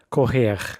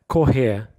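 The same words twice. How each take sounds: First: The final R is a guttural throat sound. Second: The final R is not pronounced at all. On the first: "like the guttural sound" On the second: "You might not hear it at all"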